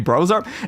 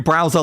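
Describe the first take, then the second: First: The first syllable sounds like 'bro', as in brother. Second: The first syllable rhymes with 'cow', as 'brow'. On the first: It blends Bowser with bro. "Bowser but a bro, in which case it'd be browser" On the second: It names the web browser program. "like you know Mozilla, uh, Firefox"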